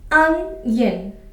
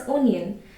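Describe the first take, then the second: First: The first vowel is an 'uh' sound. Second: The first vowel is an 'oh' sound. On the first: The speaker calls it right. "The word sound starts with A" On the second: The speaker calls it wrong. "It's wrong to say it as onion"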